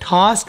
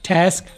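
First: It is said with a British accent. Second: It is said with an American accent. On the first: "ये टास्क British में" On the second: "American में"

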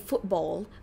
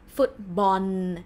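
First: The word ends with an L sound. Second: The word ends with an N sound. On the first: The speaker calls it wrong. "We don't say football" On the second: The speaker calls it right. "We say football. Because L or loling for us is no nu sound"

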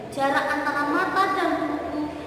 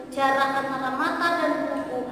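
No difference in how they are said.

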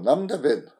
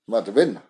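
First: It is said in a soft, inviting tone. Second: It is said in a firm, commanding tone. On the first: The person is welcomed to come in and sit. "that's more of an invite" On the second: The person is told to stop standing and sit down. "that's kind of a command"

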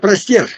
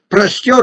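First: The last syllable has an 'e' vowel. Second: The last syllable has an 'o' vowel. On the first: The speaker calls it wrong. "но не простер" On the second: The speaker calls it right. "и буква ее. Простер руки"

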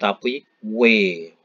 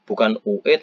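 First: The vowels are merged quickly into one glide, WE. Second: The two vowels are sounded separately, U then E. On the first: The speaker calls it right. "kalau membacanya cepat, bukan UE tapi WE" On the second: The speaker calls it wrong.

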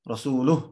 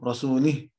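First: The vowel before the final h is u. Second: The vowel before the final h is i. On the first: The Messenger is also free from the polytheists. The speaker calls it right. "changing one haraka, one vowel" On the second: God is free from the polytheists and from the Messenger. The speaker calls it wrong. "changing one haraka, one vowel"

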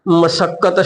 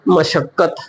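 First: The middle consonant is a plain s sound. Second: The middle consonant is an sh sound. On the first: "ਸੱਸੇ ਦੇ ਆਦਿਕ ਲਾ ਕੇ ਬੋਲਦੇ ਆ" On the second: "ਜੇ ਪੈਰ 'ਚ ਬਿੰਦੀ ਲਾਵਾਂਗੇ"

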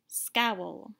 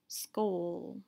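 First: The vowel is an OW sound, as in cow. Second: The vowel is a long O, as in snow. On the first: The speaker calls it right. "Let's try it with the OW sound" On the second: The speaker calls it wrong. "trying first the long O sound"

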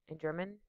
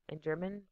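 Both takes have the same delivery.

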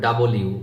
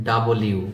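No difference in how they are said.

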